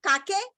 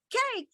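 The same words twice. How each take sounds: First: "kake" read as two syllables, kah-keh; wrong pronunciation. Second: Said in the usual way. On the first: Shown as a demonstration. Teacher mimics a child misreading cake, mispronounced "kake" with two syllables. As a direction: sound out the silent E at the end of "kake". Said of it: "No, you won't do that". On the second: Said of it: "It is cake".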